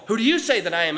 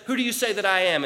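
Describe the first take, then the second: First: YOU punched in "who do you say"; quicker question leaning hard on YOU; stress on YOU. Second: Said in the usual way. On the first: Retold or imitated. Asked again, contrasting "some say.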